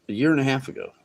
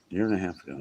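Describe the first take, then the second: First: Said in the usual way. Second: Softer, lower echo of "A year and a half ago"; murmured repeat; quiet repeat. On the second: Real, not acted.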